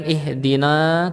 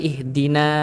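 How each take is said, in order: First: "ihdina" ending in long rounded "naw"; heavy "no" at the end of "ihdina"; thickened na. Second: "ihdina" ending in a light open "naa"; thin na. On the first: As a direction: darken the last a of "ihdina". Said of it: "bukan ihdina". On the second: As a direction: keep the last a of "ihdina" front and thin. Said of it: "tipis kelihatan huruf nanya". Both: Shown as a demonstration.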